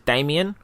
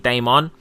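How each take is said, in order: First: The name is said as Damien. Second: The name is said as Damon. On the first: The speaker calls it wrong. "some people pronounce his name as Damien" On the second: The speaker calls it right. "the correct pronunciation of it is actually Damon"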